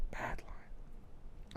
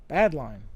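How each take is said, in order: First: Breathy whispered aside, much softer. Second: Said in the usual way. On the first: Real, not acted. Muttering to himself about the bad line, whispered. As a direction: hush it to yourself. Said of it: "repeats the phrase as a whisper". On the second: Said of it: "repeats the phrase".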